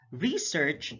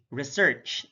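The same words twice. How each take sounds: First: REsearch, with a long stressed REE; careful demo of REsearch; stress on first syllable. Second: ReSEARCH, second syllable stressed; careful demo of reSEARCH. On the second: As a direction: say "research" with short re, strong SEARCH. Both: Shown as a demonstration. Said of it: "slight difference in terms of sound".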